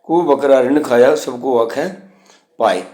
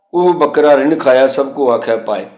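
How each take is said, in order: First: ਕੁਹੂ said clearly as "kuhu" at the start; kuhu spoken clearly. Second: Said in the usual way. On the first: Shown as a demonstration. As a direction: open the line with a clear ਕੁਹੂ. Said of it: "ਬੱਕਰੇ ਨੂੰ ਕੁਹੂ ਕੇ". (ਸਤਰ ਦੇ ਸ਼ੁਰੂ ਵਿੱਚ "ਕੁਹੂ" ਸਾਫ਼ ਬੋਲੋ)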